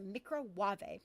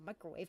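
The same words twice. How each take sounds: First: The word is said with mock French pronunciation. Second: The word is said with ordinary English pronunciation. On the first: The speaker calls it right. "Pronounce it the French way" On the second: The speaker calls it wrong. "It's not a microwave"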